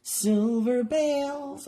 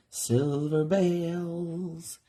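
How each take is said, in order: First: Silver bales sung out high and drawn out; high, slow, silly Silver bales; silly accent. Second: Silver bales drawn out slowly; slow, playful Silver bales; silly accent. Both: Shown as a demonstration. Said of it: "I have to say it with that silly accent".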